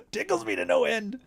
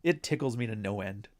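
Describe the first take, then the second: First: High, giggling repeat of tickles me to no end; laughing delight. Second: Said in the usual way. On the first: Real, not acted. Amused by the guests' arguments, laughing high. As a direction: squeal it out through a laugh.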